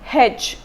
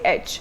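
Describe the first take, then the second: First: The letter is said the South Indian way. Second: The letter is said the North Indian way. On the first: "every time he used to use pronounce the letter H, he used to say H" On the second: "I'm a North Indian, I say H"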